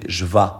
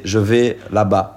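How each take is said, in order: First: Cajun "vais" said as "va"; Cajun pronunciation. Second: Said in the usual way. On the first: Shown as a demonstration. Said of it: "You say". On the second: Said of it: "In French, you say".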